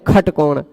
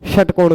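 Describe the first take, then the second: First: The word begins with a kh sound. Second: The word begins with a sh sound. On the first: This is how people commonly say it. "खटकोण कहते हैं" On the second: This is the form the common saying replaces. "षटकोण को"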